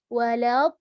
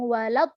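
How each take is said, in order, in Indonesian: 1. Bunyi konsonannya dipanjangkan. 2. Bunyi konsonannya dipotong pendek secara tiba-tiba. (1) "suaranya memanjang kayak gitu" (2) "bukan langsung walad"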